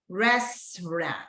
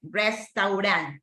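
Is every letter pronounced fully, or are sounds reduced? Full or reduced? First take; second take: reduced; full. First: Some sounds are reduced, English style. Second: Every letter is pronounced fully, Spanish style. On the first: The speaker calls it right. "No, es restaurant" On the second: The speaker calls it wrong. "no es como en español que decimos la letra total"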